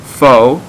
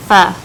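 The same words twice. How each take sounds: First: Pho said as "foe"; pho with a long o; common mispronunciation. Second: Pho said as "fuh"; pho, no long o, like "fuh"; correct pronunciation. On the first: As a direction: say pho to rhyme with "go". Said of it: "It's not pronounced pho". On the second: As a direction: say pho with a short uh vowel. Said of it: "It's called". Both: Shown as a demonstration.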